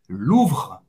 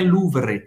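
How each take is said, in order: First: The R is made in the throat. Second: The R is made with the tongue tip. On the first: The speaker calls it right. "É Louvre" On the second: The speaker calls it wrong. "Não é com a língua, não é Louvre"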